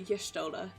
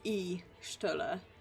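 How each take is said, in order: First: The name begins with a 'y' sound. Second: The name begins with an 'ee' vowel. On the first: The speaker calls it right. "as opposed to Y'shtola" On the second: The speaker calls it wrong. "I've always pronounced that Ishtola, e, like E Shtola"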